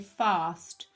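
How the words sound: The vowel is a long 'ar' sound. "normally us southerners would say fast"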